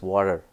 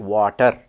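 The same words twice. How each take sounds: First: The middle consonant sounds like a D. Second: The middle consonant is a clear T sound. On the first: "it's like a D, not with a T" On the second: "I used to say water"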